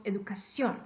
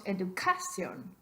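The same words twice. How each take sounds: First: "educación" stressed on final CIÓN; stress on last syllable. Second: "educación" stressed on the syllable CA; misplaced stress. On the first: Teacher giving the true form of educación, stress on final CIÓN. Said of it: "estrés extra en la última sílaba". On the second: Teacher testing the rule on educación, stress wrongly on CA. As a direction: hit CA in "educación", second to last syllable. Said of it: "el estrés de la voz cae en la penúltima sílaba". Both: Shown as a demonstration.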